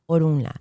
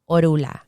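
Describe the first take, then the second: First: An n sound is heard before the l. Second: No n sound is heard before the l. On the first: "So I've heard Orunla, which is still fine" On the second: "Like the N for some reason disappears in the pronunciation"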